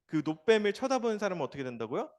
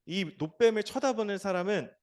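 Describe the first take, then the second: First: 쳐다보는 stressed, rising question tune; 쳐다보는 lifted into a questioning rise; asking question. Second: 쳐다보는 stressed, falling statement tune; 쳐다보는 landed with a firm fall; stated answer. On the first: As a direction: quiz the children on 쳐다보는. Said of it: "산다". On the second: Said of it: "반드시 살 것이다". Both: Shown as a demonstration.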